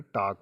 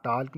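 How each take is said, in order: First: "टॉक" going from vowel straight to k; silent l. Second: "टॉक" misread with l sounded before the k; wrong pronunciation. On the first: Teacher giving students the correct reading, silent l in "टॉक". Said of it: "टॉक पढ़ेंगे". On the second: Teacher warning students off a reading, l sounded in "टॉक". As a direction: say "टॉक" as taalk, voicing the l. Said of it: "इसे आप टॉक नहीं पढ़ेंगे". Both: Shown as a demonstration.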